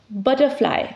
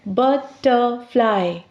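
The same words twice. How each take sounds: First: Said in the usual way. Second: "Butterfly" slowly in three beats, but, ter, fly; split into syllables. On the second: Shown as a demonstration. Teacher showing three syllables, "Butterfly" slowly split but-ter-fly. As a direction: break "Butterfly" into three parts with pauses between. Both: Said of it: "words with three syllables".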